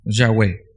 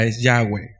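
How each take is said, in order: First: "Yahweh" said cleanly as ya-WEH, low and falling; "Yahweh", stress on the final syllable, falling; Yahweh pronunciation. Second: "Yahweh" spoken ya-weh, stress on the last syllable; Yahweh pronunciation. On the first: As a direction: model "Yahweh" once more for them. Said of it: "pudiera ser Yahvé". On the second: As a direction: say "Yahweh", not Jehová. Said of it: "lo que más se acerca a la pronunciación". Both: Shown as a demonstration.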